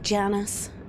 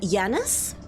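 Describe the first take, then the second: First: The name begins with a J sound. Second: The name begins with a Y sound. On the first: "supposed to be J and anyone knows, like Janus" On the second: "I find it very hard to say it with a J sound"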